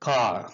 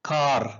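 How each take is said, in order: The two takes are said the same way.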